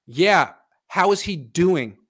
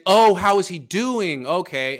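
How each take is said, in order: First: Said in the usual way. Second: Slow, louder mock echo of the question; snarky echo. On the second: Coach mockingly echoing the host's question, snarky and slow. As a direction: throw the question back, sneering. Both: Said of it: "he's very snarky about it".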